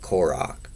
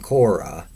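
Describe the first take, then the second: First: The name ends in a throaty ch sound. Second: The name ends in a vowel, final h silent. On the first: This is how the name is said in Hebrew. "the C H in the composer Bach, the way the name is pronounced in Hebrew" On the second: This is how readers unfamiliar with Hebrew say it. "as they will assume that the H is silent"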